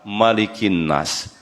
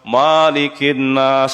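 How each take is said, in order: First: The first vowel of malik is kept short. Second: The first vowel of malik is drawn out long. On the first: The speaker calls it right. "Yang benar adalah" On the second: The speaker calls it wrong. "Jangan An-Nas dibaca panjang juga. ... itu salah"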